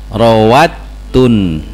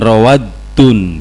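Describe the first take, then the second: First: The middle consonant sounds like t. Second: The middle consonant sounds like d. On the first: The speaker calls it right. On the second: The speaker calls it wrong. "bukan rawadun gitu ya"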